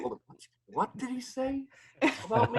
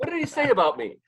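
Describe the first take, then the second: First: High, quiet, puzzled muttering; a startled double take, high and hushed; baffled high voice. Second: High and full, mock outraged; indignant high voice. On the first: Retold or imitated. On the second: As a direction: demand it with raised pitch. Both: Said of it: "'cause I'm like".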